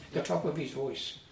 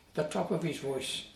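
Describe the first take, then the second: No difference in how they are said.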